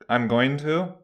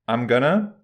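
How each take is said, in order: First: All words are said fully and separately. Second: Going to is squeezed into gonna. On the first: "this reduction of going from I'm going to" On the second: "to I'm gonna"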